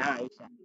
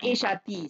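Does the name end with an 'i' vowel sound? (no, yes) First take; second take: no; yes. First: The name does not end with 'i'. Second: The name ends with an 'i' vowel. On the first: The name is treated as a foreign name. The speaker calls it right. "dengan li Aisyah" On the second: The name is treated as an ordinary Arabic noun. The speaker calls it wrong. "Tidak boleh dibaca yang Aisyati"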